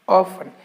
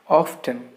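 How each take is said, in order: First: The T sound is silent in the word. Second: The T sound is pronounced in the word. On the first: The speaker calls it right. "the letter T is silent in this particular word. So the correct pronunciation of this word is often" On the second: The speaker calls it wrong. "very often we make mistake pronouncing this word as often"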